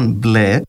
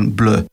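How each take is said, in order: First: It is pronounced with plain Greek sounds. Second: It is pronounced with foreign, French-like sounds.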